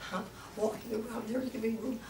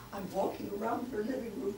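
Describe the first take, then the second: No difference in how they are said.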